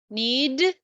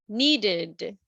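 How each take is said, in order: First: The ending is a short d sound. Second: The ending is an extra id syllable.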